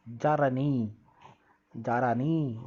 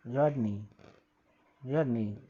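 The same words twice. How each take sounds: First: जारानी with the r drawn out into a full syllable, ja-ra-ni; wrong pronunciation demo. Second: जर्नी quick, the r barely touched; right pronunciation demo. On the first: Teacher showing pupils how not to say जर्नी. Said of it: "ऐसा नहीं". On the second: Teacher showing pupils the correct जर्नी. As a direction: say जर्नी fast, sliding over the r. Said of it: "जारानी नहीं". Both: Shown as a demonstration.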